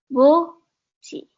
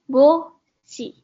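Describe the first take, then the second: Both takes have the same delivery.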